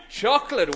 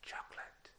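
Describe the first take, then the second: First: Said in the usual way. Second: Breathy whisper, barely audible. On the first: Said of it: "did you hear me?". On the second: Shown as a demonstration. To a hall of children, testing their hearing: whisper. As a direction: whisper it so the children must strain. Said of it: "I'm gonna say something very quietly".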